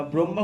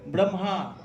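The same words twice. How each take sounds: First: ব্রহ্মা said wrongly as brombha, with a b sound; ব্রহ্মা as bromba, the mistake students make; wrong pronunciation. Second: ব্রহ্মা said as bromha, with an m-h cluster; correct pronunciation. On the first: Teacher shows students the wrong way, saying bromba. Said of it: "ব্রহ্মা বলবেন না আবার". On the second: Teacher gives students the right Sanskrit form, bromha. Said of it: "সংস্কৃত উচ্চারণ". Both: Shown as a demonstration.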